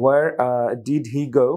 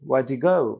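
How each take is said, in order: First: Every word is said fully, including 'did'. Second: 'Did he' is squeezed into a short 'dee'.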